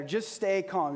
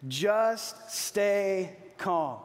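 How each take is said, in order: First: Said in the usual way. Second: Very slow, drawn out, leading the crowd; slow call to repeat. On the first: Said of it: "let's say that together". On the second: Shown as a demonstration. Preacher leading the congregation to repeat, very slow. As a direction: stretch every word so they can follow. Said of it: "You ready?".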